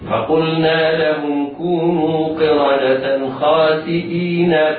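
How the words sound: The last word runs straight into the next word. "حال الوصل"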